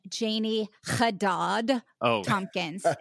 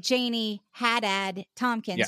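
First: The name is said with non-American pronunciation. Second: The name is said with American pronunciation. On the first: The speaker calls it wrong. "They like to say" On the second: The speaker calls it right. "And I say Janie Haddad Tompkins, just the way that you say it, because I was born here in America"

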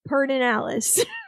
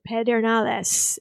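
First: The name is pronounced with Anglicized local sounds. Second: The name is pronounced with Spanish sounds. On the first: This is how locals from that area say it. "Lyndon Johnson always called it Pedernales" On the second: This is the proper pronunciation of the spelling. "if you were saying it properly, that's what you would do"

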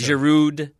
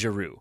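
First: The final consonant is pronounced. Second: The final consonant is silent. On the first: The speaker calls it wrong. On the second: The speaker calls it right.

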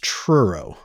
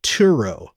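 First: It starts with a tr sound cluster. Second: It starts with a plain t sound, no r. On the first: The speaker calls it right. "It's Truro" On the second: The speaker calls it wrong. "I keep pronouncing it Turo, but it's not"

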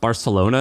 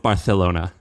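First: The 'c' sounds like a plain 's'. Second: The 'c' sounds like 'th', a lisp. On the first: This is the usual pronunciation. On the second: The king orders his own lisped way as the standard.

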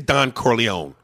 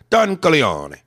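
First: The name is said with a plain American pronunciation. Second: The name is said with an Italian pronunciation. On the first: The speaker calls it wrong. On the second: The speaker calls it right. "Put the Italian on it"

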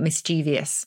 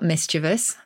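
First: It is said in the younger speakers' pronunciation. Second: It is said in the standard pronunciation. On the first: This is the form younger people now prefer. "the young are definitely preferring mischievous" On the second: This is the established form. "the standard is still mischievous"

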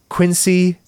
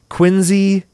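First: The middle consonant is an S sound. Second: The middle consonant is a Z sound. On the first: The speaker calls it wrong. "not Quincy" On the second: The speaker calls it right. "which is pronounced like a Z"

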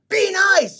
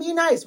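First: It is said loudly and forcefully. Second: It is said softly and meekly. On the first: A bold, aggressive demand for positivity. The speaker calls it right. "We're going to be like, ... we want to scream it from the mountaintops" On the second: A timid, gentle request. The speaker calls it wrong. "we're not going to be like, oh"

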